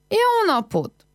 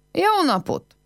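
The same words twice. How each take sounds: First: A second high greeting shouted across the yard; calling again. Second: High call of greeting across the yard; a bright, high hello shouted into the yard. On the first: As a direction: call out once more, harder this time. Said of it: "Kiáltott még egyet". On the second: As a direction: call out to an empty house. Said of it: "Elkiáltotta magát az udvaron". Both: A narrator's reading.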